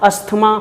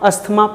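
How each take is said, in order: No difference in how they are said.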